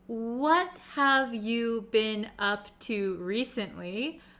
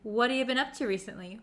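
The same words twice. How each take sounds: First: Each word is said separately, like a robot. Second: The words are shrunk and linked together smoothly. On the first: The speaker calls it wrong. "if you say each individual word by itself, you're going to sound a little bit unnatural" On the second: The speaker calls it right. "We're going to kind of shrink it down"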